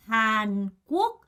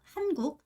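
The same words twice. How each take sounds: First: 한국 with the first syllable 한 stressed; Korean-style stress on 한 of 한국. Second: 한국 with 한 light and 국 stressed and higher; Vietnamese-style stress on 국 of 한국. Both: Shown as a demonstration. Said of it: "한국이 아니라 한국".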